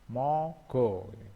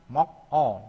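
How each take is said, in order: First: A voiced g moves over to start the second syllable. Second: A clipped k ends the first syllable before the vowel. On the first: The speaker calls it right. "bacanya mogo" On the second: The speaker calls it wrong. "tulisannya kan mok o"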